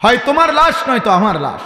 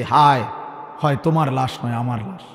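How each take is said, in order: First: Raised lament. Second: Low, soft, sorrowful retelling; mild tearful lament. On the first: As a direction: cry it out to the listeners as a warning. (উঁচু সুরে টেনে বলা আক্ষেপ) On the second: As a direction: lament quietly, as the weeping elder. (নিচু স্বরে হালকা কান্নাভেজা আক্ষেপ) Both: Retold or imitated. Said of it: "চোখের পানি ফেলে বলছে".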